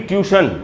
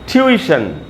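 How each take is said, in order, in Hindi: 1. दो अक्षर, बीच में कोई ee ध्वनि नहीं। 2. तीन अक्षर, बीच के ee पर ज़ोर। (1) "न कि ट्यूशन" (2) "बड़ी ई पर रुकना है हमको"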